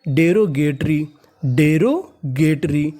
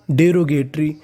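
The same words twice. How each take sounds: First: derogatory very slow, split in the middle; slow teaching pronunciation of derogatory; broken into parts. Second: Said in the usual way. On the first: Shown as a demonstration. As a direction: sound out derogatory in pieces. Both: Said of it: "तो meaning बनी".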